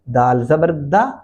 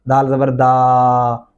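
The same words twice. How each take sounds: First: The final vowel is kept short and normal. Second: The final vowel is drawn out long. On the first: The speaker calls it right. "उसको नॉर्मल हालत में पढ़ेंगे और इनको लंबा भी नहीं करेंगे" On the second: The speaker calls it wrong. "ये तरीका गलत है"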